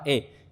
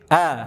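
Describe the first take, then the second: First: The vowel is pushed far toward e. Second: The vowel lies between a and e. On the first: The vowel is overdone. The speaker calls it wrong. "berlebih-lebihan sehingga miring ke imalah" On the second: The speaker calls it right. "pertengahan dia antara A sama E"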